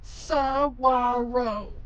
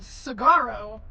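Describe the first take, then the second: First: The middle consonant is a W sound. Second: The middle consonant is a hard G sound. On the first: "So the G U sounds like a W" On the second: "it's spelled Sagaro"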